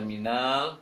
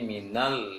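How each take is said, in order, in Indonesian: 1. Vokal sebelum huruf l dipanjangkan. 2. Vokalnya pendek dan langsung menempel ke huruf l. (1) "jangan baca minal" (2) "langsung nempel ke lam sukunnya"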